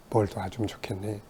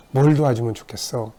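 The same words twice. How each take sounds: First: Gentle question. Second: Said in the usual way. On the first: Retold or imitated. The Lord gently asking.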